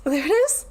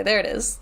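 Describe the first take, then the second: First: Laughing. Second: Said in the usual way. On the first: Real, not acted. Repeated with laugh.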